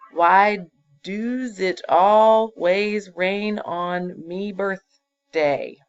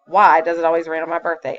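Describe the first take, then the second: First: Drawn-out, louder word-by-word read of "Why does it always rain on me birthday"; slow reading of the error. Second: Loud, quick "why does it always rain on my birthday" asked as a question; asking tune. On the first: Teacher reads the faulty sentence aloud slowly for the class. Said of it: "Lots of mistakes there". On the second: Teacher asks the fixed sentence to show it is a question. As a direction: ask it, punching "why". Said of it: "am I telling that or am I asking that". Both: Shown as a demonstration.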